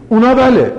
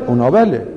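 First: Mock question tone. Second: Said in the usual way. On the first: Shown as a demonstration. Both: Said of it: "فقط لغات فارسی تشدید نداره".

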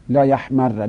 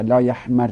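First: لا یحمر loud, doubled r, final "a"; لا یحمر as "la yahmarra"; fatha ending. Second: لا یحمر loud, doubled r, final "i"; لا یحمر as "la yahmarri"; kasra ending. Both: Shown as a demonstration.

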